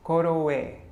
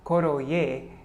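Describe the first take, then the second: First: The middle consonant is a w sound. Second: The middle consonant is a clear y sound. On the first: The speaker calls it right. "the ya, becomes a wa, a w" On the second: The speaker calls it wrong. "So it's not koroye"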